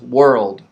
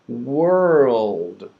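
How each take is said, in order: First: The word is said quickly and naturally. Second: The word is said slowly and drawn out. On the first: It is for real conversation. "So then we can say it fast" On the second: It is for practice. "That's a good way to say it slowly to practice it"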